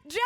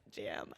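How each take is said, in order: First: High, excited squeal; blurted out. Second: Very low, hushed murmur; said to oneself. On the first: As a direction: let it burst out of your mouth. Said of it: "Jam just flew out of my mouth". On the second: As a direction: murmur it privately to yourself. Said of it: "sitting there by myself, like". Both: Retold or imitated.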